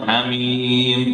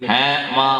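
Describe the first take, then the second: First: The vowels are drawn out long. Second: The vowels are said short and clipped. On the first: The speaker calls it right. "അതങ്ങനെയാണ് ഓതേണ്ടത്" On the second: The speaker calls it wrong. "എന്നല്ല"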